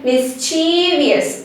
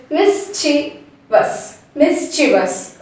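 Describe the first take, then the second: First: "mischievous" as "mis-CHEEE-vi-us", middle drawn out; prolonged wrong pronunciation. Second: "mischievous" as "MIS-chi-vus", short middle; corrected pronunciation. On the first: Teacher shows what we need not say, prolonged mispronunciation. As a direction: stretch "chee" in "mischievous" and end it "vius". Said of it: "we need not say". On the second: Teacher corrects the prolonged mistake, short-syllable pronunciation. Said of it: "No, it's just". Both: Shown as a demonstration.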